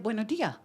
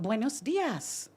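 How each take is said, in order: First: The final S sound is dropped entirely. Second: The final S sound is clearly pronounced. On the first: This is the local everyday form. "there was no S" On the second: This is the textbook form. "I was taught buenos dias"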